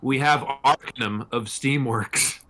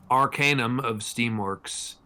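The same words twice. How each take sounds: First: Arcanum said AR-ka-num, slowly; corrected Arcanum. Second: Arcanum said ar-KAY-num, slowly; mispronounced Arcanum. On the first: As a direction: stress the first syllable of Arcanum and shorten the middle. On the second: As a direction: say Arcanum with a long "kay" in the middle. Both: Real, not acted. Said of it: "I think it's Arcanum".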